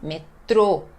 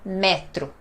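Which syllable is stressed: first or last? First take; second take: last; first. First: The stress is on the last syllable. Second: The stress is on the first syllable. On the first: The speaker calls it right. "Tem um acento circunflexo no O, então não é metro, e sim metrô" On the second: The speaker calls it wrong. "não é metro"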